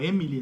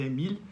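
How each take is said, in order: First: The name sounds like the woman's name Emily. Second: The name is said the French way, Émile. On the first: It sounds like a woman's name. The speaker calls it wrong. "muitas vezes o pessoal fala Emily, né? Como se fosse mulher" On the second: It is the French equivalent of Emílio. The speaker calls it right. "mas é Émile, que seria aí o equivalente francês de Emílio"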